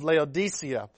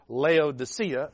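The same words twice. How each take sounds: First: It is said in a standard accent. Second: It is said in a Southern accent.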